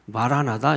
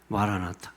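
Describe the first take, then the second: First: The last syllable begins with a soft D sound. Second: The last syllable begins with a sharp T sound. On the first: This is the original Aramaic pronunciation. "아람어 발음은 마라나타는 아니죠. 마라나다" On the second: This is the Greek transliteration. "헬라어 음역으로 번역하면 마라나타가 됩니다"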